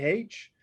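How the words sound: The letter is said the Catholic way. "Catholics generally would say H"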